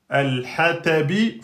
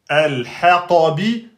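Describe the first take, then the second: First: The t sound is plain and light. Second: The t sound is emphatic and deep. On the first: The speaker calls it wrong. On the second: The speaker calls it right.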